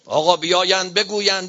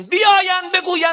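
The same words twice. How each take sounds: First: Said in the usual way. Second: Much higher, louder repeat; indignant shout. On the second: Real, not acted. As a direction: burst into a high pulpit shout. Same words repeated as shout.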